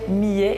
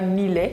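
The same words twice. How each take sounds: First: The double L is said as a Y sound. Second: The double L is said as an L sound. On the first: The speaker calls it right. "ça se prononçait millet" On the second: The speaker calls it wrong. "et pas millet"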